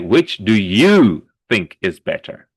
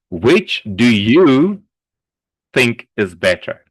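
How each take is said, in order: First: The question is read without a pause inside. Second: The question is read with a pause inside. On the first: "people like to do this" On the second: "you pause here and then you continue"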